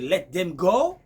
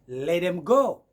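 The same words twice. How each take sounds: First: Let and them are pronounced fully and separately. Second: Let them is blended into one reduced word. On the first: "Pour dire" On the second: "vous allez écouter du genre"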